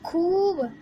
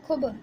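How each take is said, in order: First: The vowel is drawn out long and stressed. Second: The vowel is short and unstressed. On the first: The speaker calls it right. "जैसे इसमें ये शब्द आया खूब" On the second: The speaker calls it wrong. "मैं इसमें जोर नहीं देती तो ये कैसे हो जाता"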